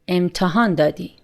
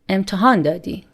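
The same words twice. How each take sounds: First: The voice falls at the end. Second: The same.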